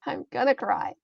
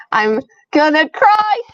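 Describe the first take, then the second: First: Much softer, quietly resigned; soft aside after an outburst; subdued resignation. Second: Loud, high and drawn out; raised, stretched-out lament; overwhelmed outburst. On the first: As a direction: say it small, to yourself. Same words, subdued second take. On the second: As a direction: wail it out in dread of tears. Overwhelmed before reading sad story. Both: Real, not acted.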